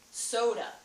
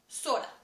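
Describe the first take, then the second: First: The first vowel glides as a diphthong. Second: The first vowel is one steady sound. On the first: This is how a Southerner says it. "being from the South, ... See how I include a diphthong?" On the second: This is how someone from the upper Midwest says it. "If you're from the upper Midwest ... One vowel sound in the middle of the word"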